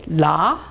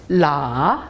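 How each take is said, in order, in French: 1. Le ton monte du milieu au haut. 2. Le ton descend bas, puis remonte. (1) "Deuxième ton" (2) "Troisième ton"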